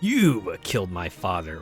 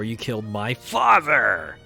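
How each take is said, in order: First: The stress falls on the word you. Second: The stress falls on the word father.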